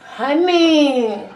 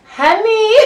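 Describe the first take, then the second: First: Calling out. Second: High loud shout. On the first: Calling for honey. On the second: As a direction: call out louder, higher. Louder second call. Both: Real, not acted.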